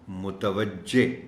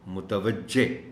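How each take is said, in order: The two takes are said the same way.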